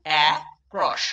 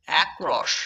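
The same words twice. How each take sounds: First: "uh... cross" split by a clear pause; two separate beats. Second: Said in the usual way. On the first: Shown as a demonstration. Teacher breaking the word into syllables for learners, two separate beats. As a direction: say "uh", stop, then "cross". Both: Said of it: "দুই ঝোঁকে উচ্চারণ করছি".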